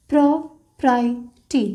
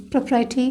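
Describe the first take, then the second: First: property stretched very slowly while writing; drawn-out word. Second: Said in the usual way. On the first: Shown as a demonstration. Teacher writing the stroke for students, very slow. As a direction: spell out property slowly, sound by sound. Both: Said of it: "तो stroke create होगा".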